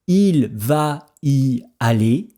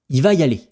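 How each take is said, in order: First: Every sound of the phrase is clearly articulated. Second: Sounds are swallowed and the phrase is shortened.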